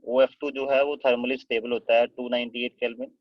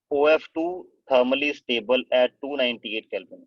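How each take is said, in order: First: Said in the usual way. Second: Slow, spaced-out dictation of a note. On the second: Shown as a demonstration. Teacher dictating a fact to the class, slowly. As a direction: read each word out slowly for students to copy.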